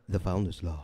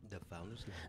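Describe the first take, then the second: First: It is said in a deeper voice. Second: It is said in a lighter voice.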